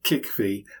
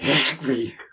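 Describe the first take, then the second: First: The word starts with a plain, easy k sound. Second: The word starts with a rough, throat-clearing sound. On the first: This is a simplified version for ease. "For ease, I say something like Chikvi" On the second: This is closer to the native pronunciation. "but it's more like Chikvi"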